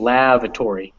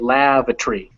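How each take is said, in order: First: The ending is full, sounding like "tory". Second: The ending is reduced to sound like "tree". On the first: "instead of" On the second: "in British English the reason it's tree instead of tory"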